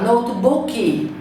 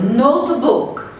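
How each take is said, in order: First: An extra vowel syllable is added at the end. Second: The word ends cleanly on its final consonant. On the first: The speaker calls it wrong. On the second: The speaker calls it right.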